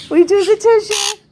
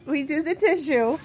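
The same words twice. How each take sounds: First: Louder, higher insistence on the tissue; firmer repeat. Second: Said in the usual way. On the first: Real, not acted. Owner insisting her parrot take the tissue, louder higher repeat. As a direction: raise it up and insist.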